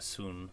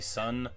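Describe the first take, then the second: First: The vowel is long, like in 'soon'. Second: The vowel is short, like in 'sun'. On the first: The speaker calls it right. "I think it's more like a Soon" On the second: The speaker calls it wrong. "I always say Sun"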